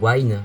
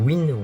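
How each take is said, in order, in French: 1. Le nom se prononce avec une voyelle longue, comme 'wine'. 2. Le nom se prononce avec une voyelle courte, comme 'win'.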